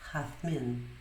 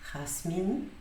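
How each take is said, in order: First: The z is pronounced as a th sound. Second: The z is pronounced as an s sound. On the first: This is the pronunciation used in Spain. "mas na Espanha ele vai ocorrer majoritariamente como" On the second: This is the Latin American pronunciation. "nos países da América, ele vai ser pronunciado como os dois S do português"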